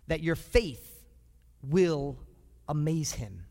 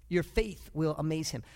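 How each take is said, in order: First: "that your faith... will... amaze him" with a pause before "will" and before "amaze"; slow emphatic pauses. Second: Said in the usual way. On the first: Shown as a demonstration. Preacher driving home the point, pausing word by word.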